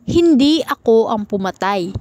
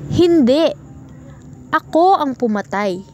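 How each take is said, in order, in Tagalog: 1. Tuloy-tuloy ito nang walang paghinto pagkatapos ng unang salita. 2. May paghinto pagkatapos ng unang salita. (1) "Pahayag ito ng pagtanggi na hindi siya ang pumatay" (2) "Pahayag ito ng pag-amin na siya ang pumatay"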